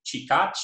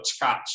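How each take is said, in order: First: CHIKACH with the pretonic i fully said; vowel kept. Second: CHKACH with no vowel between ch and k; pretonic vowel deleted. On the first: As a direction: say chikach in two syllables, stressed on the last. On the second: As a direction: run ch straight into k in chkach. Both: Shown as a demonstration. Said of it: "with deletion of that pretonic E".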